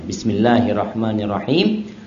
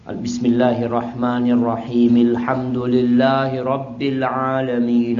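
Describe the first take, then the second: First: Each verse ends with a stop before the next. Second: The verses run together without a stop. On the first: Each verse is recited on its own. "Beliau berhenti" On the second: The verses are recited as one connected stretch.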